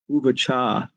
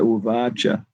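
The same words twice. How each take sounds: First: The final vowel is drawn out long. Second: The final vowel is kept short. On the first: The speaker calls it wrong. "Spanish devotees, they say say uvacha" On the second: The speaker calls it right. "but the last A is short"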